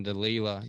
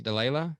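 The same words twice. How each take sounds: First: "Delela" with an "ee" in the middle, like de-LEE-la; "Delela" rhyming with Sheila; tentative pronunciation. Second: "Delela" with an "ay" in the middle, like de-LAY-la, rising; "Delela" rhyming with Layla, as a question; questioning alternative pronunciation. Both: Shown as a demonstration. Trying two pronunciations of a name.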